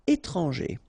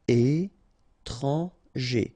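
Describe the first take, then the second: First: Said in the usual way. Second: Very slow "étranger", é-tran-ger; syllable by syllable. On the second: Shown as a demonstration. French teacher modelling for learners, "étranger" slowly syllable by syllable. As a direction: pause between each syllable of "étranger".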